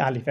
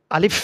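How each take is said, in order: First: Said in the usual way. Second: আলিফ articulated carefully with a long breathy final f; correct careful pronunciation. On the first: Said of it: "এমনি সাদাসিধা". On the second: Shown as a demonstration. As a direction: say আলিফ properly, holding the closing f. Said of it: "এটা সুন্দরভাবে, সহিভাবে বলতে হবে". (সুন্দর ও সহিভাবে আলিফ, শেষের ফ টেনে)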